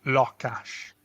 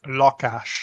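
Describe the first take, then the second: First: "lakás" with the weight on LA; stress on first syllable. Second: "lakás" said as a plain Hungarian demo word; Hungarian pronunciation. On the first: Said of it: "we emphasize that first syllable". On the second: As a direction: model "lakás" evenly for the class. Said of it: "is pronounced lakás". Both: Shown as a demonstration.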